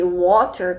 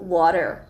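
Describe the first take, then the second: First: It is said with a British accent. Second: It is said with an American accent. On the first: "com sotaque britânico" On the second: "no inglês americano"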